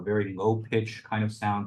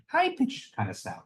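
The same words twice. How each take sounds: First: "low pitch" said low in the voice; low-pitch demo. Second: "high pitch" jumps up into a squeaky high voice; playful leap into a high register on "high pitch"; high-pitch demo. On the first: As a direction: show what low pitch sounds like. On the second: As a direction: demonstrate "high pitch" by saying it way up high. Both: Shown as a demonstration. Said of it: "I told myself I wasn't gonna do that".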